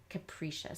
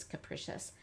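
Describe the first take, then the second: First: "capricious" as "kuh-PREE-shus"; long E. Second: "capricious" as "kuh-PRISH-us", short I; alternative pronunciation. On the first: Teacher giving the word's pronunciation, long E in the middle. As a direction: say "capricious" with middle vowel as in see. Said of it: "making a long E sound here". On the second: Teacher showing how some people pronounce it, short I. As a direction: say "capricious" softly, middle vowel as in fish. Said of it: "Some people do c-, pronounce this". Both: Shown as a demonstration.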